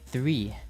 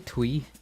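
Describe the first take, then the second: First: The word begins with a 'th' sound. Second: The word begins with a 'tw' sound. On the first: The speaker calls it right. "I say three" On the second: The speaker calls it wrong. "I don't say twee"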